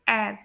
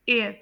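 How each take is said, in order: First: It is said with a British accent. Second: It is said with an American accent. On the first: "UK में से pronounce करेंगे" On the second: "US में से pronounce करेंगे"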